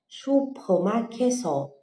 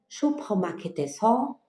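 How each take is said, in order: First: The 'e' syllable before 'seo' is dropped. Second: The 'e' syllable before 'seo' is fully pronounced. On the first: This is the casual spoken form. "eles acabam omitindo o bloquinho do E... a gente vai falar" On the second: This is the full written form. "a gente pronunciaria 슈퍼마켓에서"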